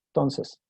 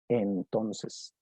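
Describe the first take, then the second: First: The word is clipped, with syllables dropped. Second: Every syllable of the word is fully pronounced. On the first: The speaker calls it right. "van a reducirla, van a decir cosas como" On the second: The speaker calls it wrong. "nadie dice así con todo el valor de la palabra"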